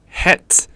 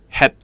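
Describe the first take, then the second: First: The final T sound is clearly pronounced. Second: The final T sound is clipped and unreleased. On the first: "we pronounce the T sound" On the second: "the Cantonese way of pronouncing it would be het"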